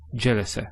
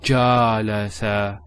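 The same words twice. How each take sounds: First: The vowels are short and quick. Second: The vowels are drawn out long. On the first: The speaker calls it right. "it's a quick sound. So just" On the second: The speaker calls it wrong.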